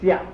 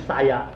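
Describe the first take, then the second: First: It is said as one merged syllable. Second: It is said as two separate syllables. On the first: The speaker calls it right. "念下" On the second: The speaker calls it wrong. "不念沙牙"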